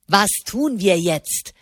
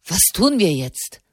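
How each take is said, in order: First: Slow, sneering parrot of his words; angry mocking imitation. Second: Said in the usual way. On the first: A narrator's reading. Didini angrily mimics Di Silvestro's question, slow and mocking. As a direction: drag it out to mock him. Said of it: "äffte Didini ihn wütend nach".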